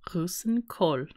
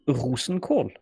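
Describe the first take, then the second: First: Rosenkål repeated roo-sen-kawl, close to the model; learner's repeat. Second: Rosenkål with Norwegian oo vowel, roo-sen-kawl; Norwegian word. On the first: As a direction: copy the teacher's Rosenkål. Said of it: "Very good". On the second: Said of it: "this is my own suggestion". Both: Shown as a demonstration.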